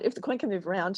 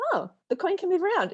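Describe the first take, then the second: First: Said in the usual way. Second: Much higher and louder, delighted; sudden hopeful lift; bright realisation. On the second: Retold or imitated. Anxious person realising the coin can move, delighted.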